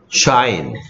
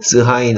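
First: The word begins with a single sh sound. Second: The word begins with s, then a separate h. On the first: The speaker calls it right. "SH는 무슨 소리 돼요? 쉬 되죠" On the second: The speaker calls it wrong. "스하인 아닌데요"

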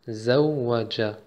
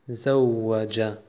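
Both takes have the same delivery.

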